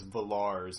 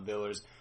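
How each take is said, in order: First: The second syllable has an 'ar' vowel. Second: The second syllable has an 'er' vowel. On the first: The speaker calls it right. "I knew that it was Villars" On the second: The speaker calls it wrong. "not Villers"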